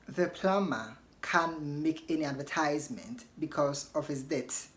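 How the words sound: It is said in an American accent. "That is in American"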